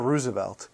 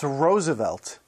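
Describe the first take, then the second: First: The first syllable does not sound like 'rose'. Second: The first syllable sounds like 'rose'. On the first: The speaker calls it wrong. "and never Roosevelt" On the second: The speaker calls it right. "it's pronounced Roosevelt, ... the same way as his favorite flower, the rose"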